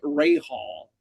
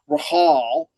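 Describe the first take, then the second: First: The first syllable sounds like 'ray'. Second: The first syllable sounds like 'rah'. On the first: This is the family's Americanized pronunciation. "we Americanized it even further" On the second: This is the traditional Lebanese pronunciation. "traditionally pronounced Rahal"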